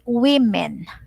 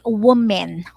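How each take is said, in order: First: The first syllable sounds like 'wim'. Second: The first syllable sounds like 'wum'. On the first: The speaker calls it right. "we say women" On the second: The speaker calls it wrong. "We don't say woman"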